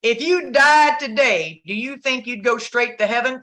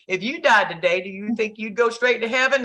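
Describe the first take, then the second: First: Quoting the preacher woman. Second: Turning the question back. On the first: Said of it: "this woman says". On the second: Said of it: "let me ask you". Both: Retold or imitated.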